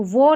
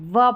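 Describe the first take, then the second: First: "वो" with a long o vowel; wrong pronunciation. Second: "व" with a short uh vowel; correct pronunciation. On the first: Teacher rejects this reading, "वो" as voh. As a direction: say the syllable "वो" as voh. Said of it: "तो वो नहीं". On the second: Teacher gives the right sound, "व" as vuh. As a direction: say the syllable "व" as vuh. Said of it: "व पढ़ेंगे W O को". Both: Shown as a demonstration.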